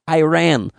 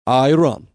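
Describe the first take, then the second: First: It is said the common American way. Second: It is said as a blend of both. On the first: This is the pronunciation the country's people dislike. "we are very upset when everybody says Iran" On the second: This is a compromise between the two sides. "we are going to call you a compromise"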